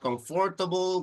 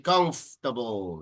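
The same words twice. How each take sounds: First: The middle vowel is pronounced as a full syllable. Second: The middle vowel is dropped and not heard. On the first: The speaker calls it wrong. "So it's not comfortable" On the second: The speaker calls it right. "the second O doesn't make any sound"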